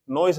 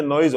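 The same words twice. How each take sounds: First: नॉइज ending in S instead of Z; wrong noise pronunciation. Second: नॉइज ending in a voiced Z; correct noise pronunciation. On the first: Teacher rejecting children's mistake, wrong final S. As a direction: say नॉइज with a final 's' sound. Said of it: "नॉइज नहीं, ये नॉइज होता है". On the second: Teacher correcting children's mistake, voiced final Z. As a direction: say नॉइज with a buzzing 'z' at the end. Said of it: "ये नॉइज होता है". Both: Shown as a demonstration.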